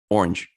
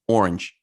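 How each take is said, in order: First: The word is said with one syllable. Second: The word is said with one syllable.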